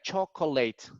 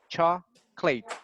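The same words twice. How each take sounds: First: The middle vowel is clearly pronounced. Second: The middle vowel is dropped entirely. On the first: The speaker calls it wrong. "we don't say like chocolate" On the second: The speaker calls it right. "if you just put the clate"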